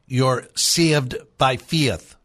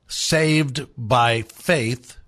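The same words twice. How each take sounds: First: Slow Irish demo, "saved" and "faith" with ee-uh vowels; Irish accent. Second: Said in the usual way. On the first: Shown as a demonstration. Host teaching listeners his Irish trick, slow Irish accent. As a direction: turn each long A into an Irish "ia". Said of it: "You replace A with ia". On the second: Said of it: "you never say A".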